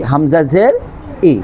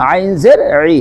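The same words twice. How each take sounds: First: Plain, unsqueezed "হামজা জের ই"; Arabic Hamza with i. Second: Pressed throaty onset in "আইন জের ই"; Arabic Ain with i. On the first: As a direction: say "ই" with a clean glottal onset. (চাপ ছাড়া হামজার "ই") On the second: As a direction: squeeze "ই" from the throat. (গলা চেপে আইনের "ই") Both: Shown as a demonstration. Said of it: "নাকি ই?".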